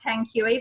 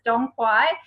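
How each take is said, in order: First: The name begins with a T sound. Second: The name begins with a D sound. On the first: This is how the written name looks. The speaker calls it wrong. "it looks like Tang Kui" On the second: This is how the name is actually pronounced. The speaker calls it right. "but it's Dong Quai"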